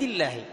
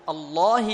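First: The L is pronounced light and thin. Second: The L is pronounced heavy and velarized. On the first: The word is joined to the preceding verse. "إذا وصلناها ترقق" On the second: The word begins the recitation after a pause. "تفخم، لماذا؟ لأن سبقت بفتح"

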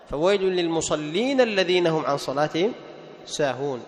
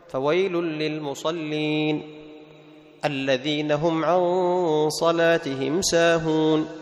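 First: The words run on with no pause after 'lil-musallin'. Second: There is a pause after 'lil-musallin'. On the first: The meaning is made clear to the listener. "وإذا وصل كان أفضل" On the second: The reciter stops at the end of the verse. "هذا سنة إذا وقف عليه"

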